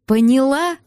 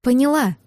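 First: Sharply rising question on ПОНЯЛА; mildly heated, rising demand; insistent demand. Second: Firm falling ПОНЯЛА; decisive reply with a final fall; clear, firm answer. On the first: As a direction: press for an answer, voice climbing. Angry man demands she understand. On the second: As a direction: state it distinctly, no question. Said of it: "чётко сказала я ему". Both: A narrator's reading.

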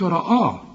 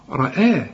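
First: رآه with a dark second "aa"; wrong heavy hamza. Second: رآه with heavy r then thin "ae"; light hamza. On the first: Teacher shows what not to say, رآه heavy throughout. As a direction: thicken all of رآه. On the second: Teacher corrects the student, رآه with light hamza. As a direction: lighten the second vowel of رآه. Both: Shown as a demonstration. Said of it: "وبرضه ما تقولش".

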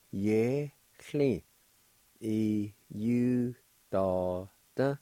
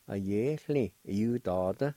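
First: "uh, ye, chli, e, u, da, da" with a gap after each syllable; measured teaching take of "uh, ye, chli, e, u, da, da"; syllable-by-syllable demo. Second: "A ye, chli, e, u, da, da" run together as one word; connected teaching take of "A ye, chli, e, u, da, da"; joined-up pronunciation. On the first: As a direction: sound out "uh, ye, chli, e, u, da, da" piece by piece. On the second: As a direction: blend "A ye, chli, e, u, da, da" without gaps. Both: Shown as a demonstration. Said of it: "And together".

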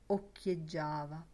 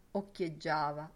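The two takes are said the same way.

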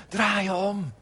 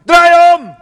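First: Softer, gentle call to turn around; compassionate plea. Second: High, loud barked command; mock condemning shout. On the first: Retold or imitated. Jesus calling people back from a bad road, gently. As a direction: plead it kindly, not condemning. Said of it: "vanuit compassie en barmhartigheid". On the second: Preacher imitating a condemning Jesus, loud mock yell. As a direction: yell it as a harsh judge. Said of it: "jij leest het alsof Jezus zegt".

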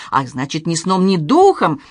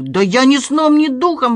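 First: Mocking echo. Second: Loud, high-pitched protest; wailed denial. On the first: Professor echoing his nephew's denial, mocking. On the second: Doorman denying the theft to his uncle, wailing. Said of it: "вопил Гриша". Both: A narrator's reading.

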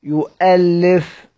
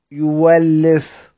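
First: يؤلف with a clear glottal stop, slow; with hamza. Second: يولف with the hamza turned into a w sound, slow; hamza as waw. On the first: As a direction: say يؤلف drawn out, hamza sounded. (يؤلف بالهمز ببطء) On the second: (يولف بإبدال الهمزة واوًا ببطء) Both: Shown as a demonstration. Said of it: "يقف على سيدنا حمزة إزاي؟".

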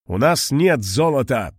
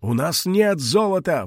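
First: Steady, firm statement with weight on нет; firm нет, not a cry. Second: Higher desperate shout on нет; old man pleading in despair; desperate cry. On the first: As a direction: stand your ground calmly. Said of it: "твёрдо сказал Мариэль". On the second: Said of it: "в отчаянии закричал старик". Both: Acted.

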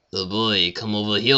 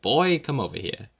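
First: Cartoonish, badly faked French accent; hammed-up French accent, like a cartoon character. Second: Higher-pitched rude call to a waiter; mock-rude waiter summons. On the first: Shown as a demonstration. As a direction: loudly fake an awful French accent. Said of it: "Except in a French accent". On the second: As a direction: summon a waiter rudely, pitch jumping on "Boy". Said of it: "be rude to a waiter".

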